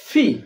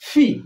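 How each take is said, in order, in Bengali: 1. P ধ্বনিটিতে জোরে বাতাসের ফুঁ থাকে। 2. P ধ্বনিটিতে জোরে বাতাসের ফুঁ থাকে।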